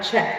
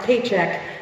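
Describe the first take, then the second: First: The name is said as one syllable, check. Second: The name is said like the word paycheck. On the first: "not check" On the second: "not paycheck"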